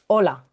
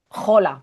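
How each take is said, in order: First: The word begins directly with the vowel. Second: The word begins with a harsh throaty J sound. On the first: The speaker calls it right. "hola es hola" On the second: The speaker calls it wrong. "no es jola"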